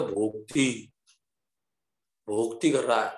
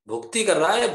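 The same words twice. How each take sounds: First: Put-on Bengali accent, low and rounded vowels; bengali accent in hindi. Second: Said in the usual way. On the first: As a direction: Bengali babu saying भोक्ति for भक्ति. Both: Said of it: "Bengali बाबू बोलते हैं".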